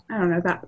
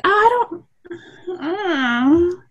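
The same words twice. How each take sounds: First: Said in the usual way. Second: High, wavering, lightly voiced I don't know; a mild, teary-sounding mock of a friend; unsure reply. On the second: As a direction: imitate someone flustered and unsure. Voicing someone's unsure reply.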